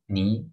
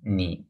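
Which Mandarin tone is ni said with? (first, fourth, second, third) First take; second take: second; third. First: The pitch rises from middle to high. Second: The pitch dips low and then rises. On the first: "four tones" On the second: "four tones"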